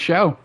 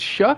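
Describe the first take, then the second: First: The name ends in an open vowel. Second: The name ends with a k sound. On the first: The speaker calls it wrong. "I thought it was pronounced Show" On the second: The speaker calls it right. "How do you pronounce it? It's Shuck?"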